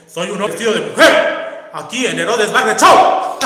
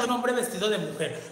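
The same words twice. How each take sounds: First: Shouting on request. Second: Said in the usual way. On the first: Shown as a demonstration. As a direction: belt it out like a show announcement. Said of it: "Hermana, grita un hombre vestido de mujer". (grito a todo pulmón) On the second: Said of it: "grita un hombre vestido de mujer".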